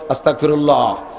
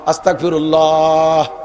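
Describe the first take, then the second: First: It is said short, not drawn out. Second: It is drawn out the longest.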